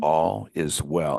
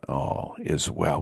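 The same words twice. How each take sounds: First: It is said in a normal voice. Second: It is said in a low, hypnotic voice.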